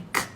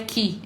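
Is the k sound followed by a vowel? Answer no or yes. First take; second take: no; yes. First: The k sound is short and dry, no vowel. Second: The k sound ends with an added vowel. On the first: The speaker calls it right. "é k. ... o K é mudo, seco" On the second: The speaker calls it wrong. "Não é ki"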